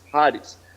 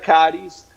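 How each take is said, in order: First: The name begins with a Spanish J sound. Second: The name begins without a Spanish J sound. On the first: "como si fuera una J, como Haris" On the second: "el término sería Caris"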